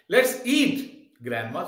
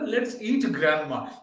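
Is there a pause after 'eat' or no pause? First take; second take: pause; no pause. First: There is a pause after 'eat'. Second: The words run on without a pause. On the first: Grandma is being called to come and eat. The speaker calls it right. "see your intonation, let's eat grandma, so I give a pause" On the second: Grandma is the food to be eaten. The speaker calls it wrong. "Dusra aadmi bolega, usne to bola, let's eat grandma. Chalo, grandma ko kha lete"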